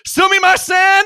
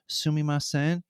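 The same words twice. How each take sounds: First: It is said loudly and boldly. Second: It is said quietly and politely. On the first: An outgoing, lively way to get attention. "you say sumimasen" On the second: A reserved, polite way to get attention. "you don't say sumimasen"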